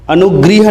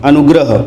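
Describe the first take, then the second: First: अनुगृह with ग्री, the incorrect reading; wrong form read out. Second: अनुग्रह with ग्र, short a after r; correct form. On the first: Teacher shows students the wrong form, अनुगृह. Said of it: "अनुगृह ना पढ़ के". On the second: Teacher gives students correct अनुग्रह, crisp. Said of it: "इसको अनुग्रह पढ़ते हैं". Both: Shown as a demonstration.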